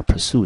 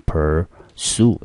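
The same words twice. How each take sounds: First: Said in the usual way. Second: "pursue" slowly split, weight on sue; stress on second syllable. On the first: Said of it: "我们看一下pursue这个字". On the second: Shown as a demonstration. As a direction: draw out "pursue" as per, then stressed SUE. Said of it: "中音节落在第二个音节".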